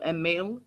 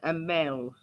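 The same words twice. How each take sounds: First: Emil as "em-MEEL", rising in question; alternative pronunciation. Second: Emel with an "el" ending, falling; trying a pronunciation. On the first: Streamer unsure of a viewer's name, questioning pronunciation. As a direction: say Emil with a long ee, tune lifting. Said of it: "pronouncing certain names and things like that". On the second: Streamer trying out a viewer's name, testing pronunciation. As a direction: say Emel as "em-MEL", short e, tune dropping. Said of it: "Is that right?". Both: Shown as a demonstration.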